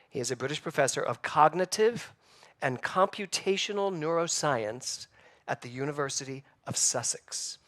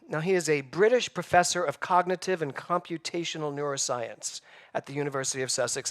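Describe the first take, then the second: First: It is said slowly and deliberately. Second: It is said at a normal pace.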